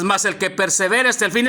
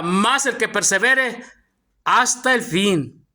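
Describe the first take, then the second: First: Said in the usual way. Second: Slow and deliberate, phrase by phrase; slow emphatic reading. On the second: Shown as a demonstration. Preacher pointing the congregation to the verse's wording, slow and emphatic. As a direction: draw out each phrase, pausing before "hasta el fin". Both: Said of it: "Mire la palabra".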